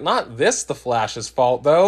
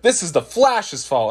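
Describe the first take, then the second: First: Not stretched and stressed, slowed down; slow, pointed Not in the correction. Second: Said in the usual way. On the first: Retold or imitated. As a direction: lean on the word Not to correct them. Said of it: "And I'm like". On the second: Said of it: "And it's like".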